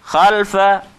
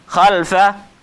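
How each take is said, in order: No difference in how they are said.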